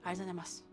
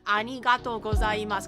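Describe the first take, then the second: First: The words run together, loosely mumbled. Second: Each syllable is carefully and clearly pronounced.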